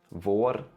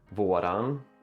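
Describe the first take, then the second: First: The word is said as one syllable. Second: The word is said with an added final syllable.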